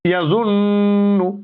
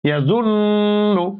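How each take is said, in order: No difference in how they are said.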